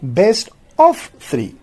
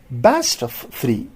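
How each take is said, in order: First: The vowel of 'of' is pronounced. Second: The vowel of 'of' is dropped. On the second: "So here again a vowel is lost"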